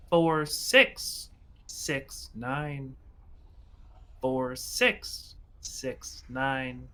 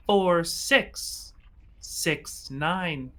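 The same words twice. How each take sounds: First: Slow, fading machine repeat; robotic voice. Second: Slow, spaced-out robot announcement; robotic voice. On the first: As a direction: let the numbers drag out like a broken recording. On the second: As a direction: drone the numbers like a machine. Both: Acted. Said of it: "you hear a robotic voice say".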